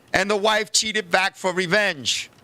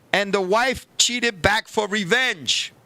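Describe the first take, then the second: Both takes have the same delivery.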